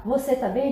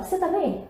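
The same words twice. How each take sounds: First: "Você" said in full, both syllables; careful, unshortened "Você"; full form. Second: "Você" cut down to "cê"; higher, casual "cê tá bem"; swallowed syllable. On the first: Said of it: "Ao invés de falar". ("Você" inteiro, sem comer sílabas) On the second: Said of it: "A gente também come algumas". ("Você" reduzido a "cê", informal) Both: Shown as a demonstration.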